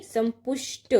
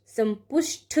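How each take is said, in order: First: संपुष्ट ending in a dry ṭ; correct unaspirated ending. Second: संपुष्ट drawn out to a puffed ṭh; wrong aspirated ending. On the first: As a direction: say संपुष्ट as sampushṭa, no breath puff. (संपुष्ट के अंत में ट की ध्वनि) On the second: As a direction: say संपुष्ट as sampushṭha. (संपुष्ट के अंत में ठ की ध्वनि) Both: Shown as a demonstration. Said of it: "नहीं".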